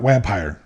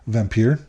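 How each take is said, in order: First: The word starts with a W sound. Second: The word starts with a V sound. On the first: The speaker calls it wrong. "not vampire" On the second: The speaker calls it right. "the actual pronunciation of that is vampire"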